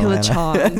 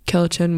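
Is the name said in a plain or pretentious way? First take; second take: pretentious; plain. First: The name is said in a fancy, pretentious way. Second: The name is said in a plain, casual way. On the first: The speaker calls it right. "they say it in such a pretentious way" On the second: The speaker calls it wrong. "I think I'm saying it wrong"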